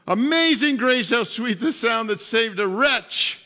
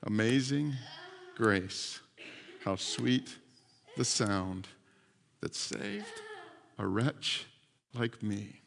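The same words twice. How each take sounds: First: Raised, louder declaimed hymn line; forceful proclamation. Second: Low, hushed, halting recitation; humble reverence. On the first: Preacher driving home the captain's rescue, forceful proclamation. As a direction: proclaim the words out to the whole room. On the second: Rescued captain on his knees on shore, humbly reverent. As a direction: speak it softly as a kneeling prayer, phrase by phrase. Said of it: "got down on his knees and he said". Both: Retold or imitated.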